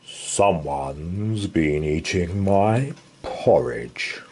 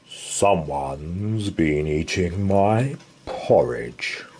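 First: It is growled in Father Bear's voice. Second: The same.

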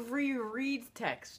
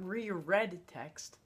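First: The word ends sounding like 'reed'. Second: The word ends sounding like the color 'red'. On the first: The text should be read again. The speaker calls it right. "it says reread text" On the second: The text is colored red. The speaker calls it wrong. "not reread text. Oh, I was wondering what colors had to do with the PSSA"

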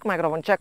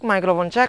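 First: The receiver is five steps away. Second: The receiver is ten steps away. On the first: "Ini di jarak lima langkah" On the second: "Ini di jarak sepuluh langkah"

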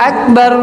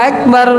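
Both takes have the same delivery.

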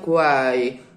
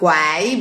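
First: The vowel is covered and concealed. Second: The vowel is open, with the mouth spread. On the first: The speaker calls it right. "That's the real coverage of the vowel" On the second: The speaker calls it wrong. "It's not quai"

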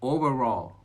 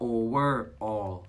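First: The word's parts are run smoothly together. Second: The word's parts are said more separately.

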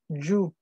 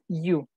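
First: It starts with a stronger, j-like consonant. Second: It starts with a plain, soft y sound. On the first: The speaker calls it right. "como con doble L" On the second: The speaker calls it wrong. "No es Yu"

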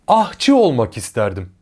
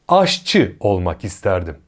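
First: The first word has an 'h' before 'çı'. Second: The first word has an 'ş' before 'çı'. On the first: The speaker calls it wrong. "Yanlış" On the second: The speaker calls it right. "Doğru"

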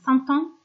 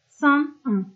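First: The words are joined by a linking t. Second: The words are said without a linking t. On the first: The speaker calls it wrong. "San-ton demiyorum" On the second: The speaker calls it right. "Burada kesinlikle liyazon yapmıyorum"

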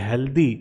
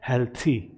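First: The middle consonant is a 'd' sound. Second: The middle consonant is a 'th' sound. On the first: The speaker calls it wrong. "जिसे आप बोलते होंगे" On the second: The speaker calls it right. "द की जगह थ pronounce कर रहा हूं"

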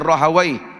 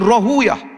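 First: The name ends with an '-awaih' sound. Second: The name ends with an '-uyah' sound. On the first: "ataupun dibaca dengan Rahawai" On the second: "Rahuyah pun boleh baca"

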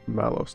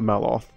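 First: The name ends with an s sound. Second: The name ends with a th sound. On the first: The speaker calls it right. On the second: The speaker calls it wrong. "not Maloth"

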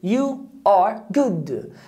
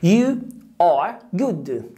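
Both takes have the same delivery.

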